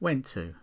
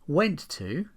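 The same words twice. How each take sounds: First: The final t sound is dropped. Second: The final t sound is clearly pronounced.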